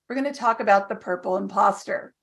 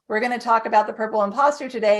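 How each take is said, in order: First: The sentence ends with a full stop. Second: The sentence rolls on without a stop.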